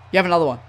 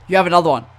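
The two takes are said the same way.

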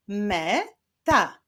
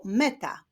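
First: "Me-ta" split into two separate syllables. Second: Said in the usual way. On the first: Shown as a demonstration. Teacher clapping out syllables for children, "Me-ta" said syllable by syllable. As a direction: clap out "Me-ta": me, pause, ta. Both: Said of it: "Wyklaszczmy sylaby w tych wyrazach".

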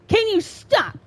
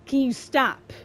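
First: "Can you stop?" pitched up into a whiny plea; higher pleading. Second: Said in the usual way. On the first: Real, not acted. Gamer pleading with the game to stop, higher whine. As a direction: beg it to stop, voice rising.

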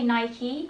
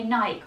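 First: Nike said with two syllables, "nai-kee"; American Nike. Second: Nike said as one syllable, "naik", with no final vowel; British Nike. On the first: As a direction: say "Nike" ending on a clear "ee". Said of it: "all British people say Nike". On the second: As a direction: say "Nike" like "bike", ending on the k. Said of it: "We don't say Nike". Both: Shown as a demonstration.

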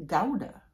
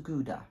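First: Gouda said as "GOW-duh"; first syllable of Gouda rhymes with "cow"; pronounced GOW-duh. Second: Gouda said as "GOO-duh"; first syllable of Gouda rhymes with "too"; pronounced GOO-duh. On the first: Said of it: "It's pronounced". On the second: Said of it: "it is not pronounced Gouda". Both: Shown as a demonstration.

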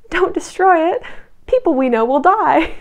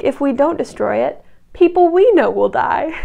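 First: High, loud heroic plea; mock-dramatic cry to stop them, pitched up; Belle. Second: Loud mock retort, "we" leaping up in pitch; stress on WE. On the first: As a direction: plead loudly like an overwrought heroine. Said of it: "Belle's heroic move is to go". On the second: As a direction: throw the weight onto "we" in a retort. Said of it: "the British men are like".

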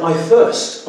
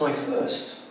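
First: Said in the usual way. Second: "I thirst" breathed out as a soft, unvoiced whisper; "I thirst" almost voiceless, much softer; faint dying plea. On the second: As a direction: let "I thirst" fade to a parched whisper. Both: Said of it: "Jesus says".

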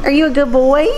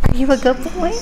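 First: High coaxing pet voice; sweet high praise for a puppy; talking to a dog. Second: Gentle high puppy praise; talking to a dog. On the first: Praising dog, rising tune. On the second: Repeat, softer. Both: Real, not acted.

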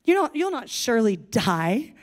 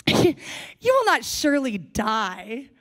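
First: Sarcastic. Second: Slow, mocking "will not surely die"; mocking serpent dismissing God's warning; sarcastic. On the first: Acted. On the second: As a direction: scoff at the warning, slowly. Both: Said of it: "Do you hear the sarcasm?".

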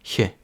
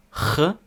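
First: Soft front German ich «х»; м'який «х». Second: Hard back-of-mouth «х»; твердий «х». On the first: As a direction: soften «х» towards a hissed «хь». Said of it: "і один м'який". (м'який звук «х») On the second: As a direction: sound a hard German ach «х». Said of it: "Один твердий". (твердий звук «х») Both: Shown as a demonstration.

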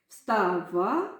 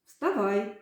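First: «Вставай» said as встава, rising, no final й; unfinished word for them to complete; й left off. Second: Said in the usual way. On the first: Shown as a demonstration. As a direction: leave the ending open. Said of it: "я зараз вам покажу". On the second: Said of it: "долучаєтеся до гри".

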